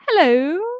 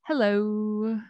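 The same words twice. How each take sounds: First: The word is said short. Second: The word is long and drawn out.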